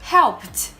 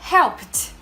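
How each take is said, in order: The two takes are said the same way.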